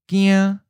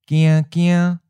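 First: A single syllable on a high level pitch. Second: Doubled syllable, first mid level, second high level. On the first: Scared. "we'll first say the adjective by itself" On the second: A little scared. "the reduplicated version has both the changed tone and the original tone"

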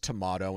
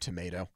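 First: The word is said in a British-style pronunciation. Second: The word is said in an American pronunciation.

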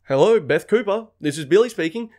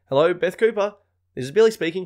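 First: It sounds like a fake, overly formal work voice. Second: It sounds like a plain, natural everyday voice.

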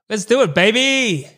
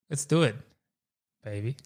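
First: It is said with loud excitement. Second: It is said calmly, without excitement.

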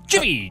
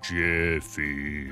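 First: It is said with lively, peppy energy. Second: It is said flatly, without energy.

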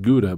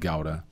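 First: It is said with an English-style pronunciation. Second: It is said with a Dutch-style pronunciation. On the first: This is the usual local name for it. "we call it Gouda" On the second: This is the original name from its home country. "I know the name is Gouda. From Holland"

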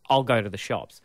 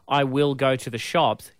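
First: "I will" is shortened to one syllable. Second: "I will" is said as two full words. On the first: "you'll say" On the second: "instead of saying"

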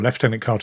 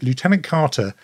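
First: Lieutenant is said with the local pronunciation. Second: Lieutenant is said with the American pronunciation.

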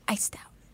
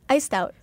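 First: It is said in a whisper. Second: It is said in a normal voice.

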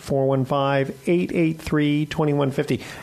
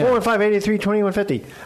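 First: The number is said slowly. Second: The number is said fast.

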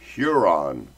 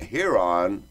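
First: The first syllable sounds like 'hue'. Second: The first syllable sounds like 'heh'. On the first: The speaker calls it right. "It's Huron. With a U" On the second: The speaker calls it wrong. "Not Huron. Like a heron"

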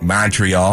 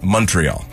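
First: It is said in a Chicago accent. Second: It is said in a Canadian accent. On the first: The speaker calls it wrong. "you kind of get that Chicago accent" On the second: The speaker calls it right. "The Canadians say Montreal"

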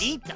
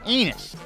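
First: The T sound is clearly pronounced before "us". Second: The T sound is dropped, sounding like one word. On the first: The speaker calls it right. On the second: The speaker calls it wrong.

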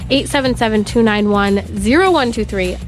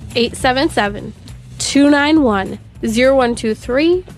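First: The number is read at a faster pace. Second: The number is read at a slower pace.

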